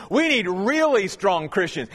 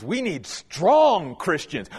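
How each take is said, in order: First: "really" punched before "strong"; stress on really. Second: "strong" slow and weighty; stress on strong. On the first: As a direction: build by hitting "really". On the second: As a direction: lean on the word "strong". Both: Shown as a demonstration.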